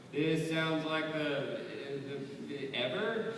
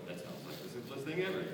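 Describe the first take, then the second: First: High, slow, fumbling mangled version of the line; botched repeat. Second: Mock repeat. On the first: Retold or imitated. Panel guest mocks a bad repeater with a high fumbling voice. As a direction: stumble through it like someone who can't repeat. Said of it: "They would go". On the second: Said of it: "most of you would go".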